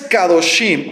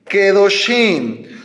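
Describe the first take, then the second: First: The first vowel is a full open a. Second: The first vowel is a short reduced e. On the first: The speaker calls it wrong. "no es Kadoshim, ... es incorrecto" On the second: The speaker calls it right. "cambia la kamatz por sheba"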